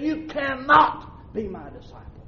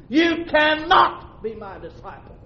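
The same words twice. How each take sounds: First: Said in the usual way. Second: Preaching shout; shouted repeat. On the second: Acted. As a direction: shout the warning out to the church.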